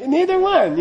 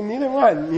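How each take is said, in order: First: "Neither one." thrown out high with a falling finish on "one"; emphatic answer. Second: Said in the usual way. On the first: Shown as a demonstration. Teacher demonstrating the answer to a student, high and emphatic. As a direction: say "Neither one." high, hitting "one" and letting it drop. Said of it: "you go like that". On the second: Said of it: "you say".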